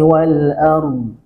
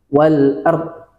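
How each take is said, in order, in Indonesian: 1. Bunyi r ditahan dengan suara yang mengalir. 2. Bunyi r dihentikan secara mendadak. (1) "arm ya" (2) "Nggak boleh ... tidak ada uh, aliran dari huruf ro-nya"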